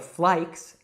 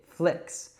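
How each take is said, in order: First: The vowel is an eye sound. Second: The vowel is a short i sound. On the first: The speaker calls it wrong. "or flikes" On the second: The speaker calls it right. "it's I, flicks"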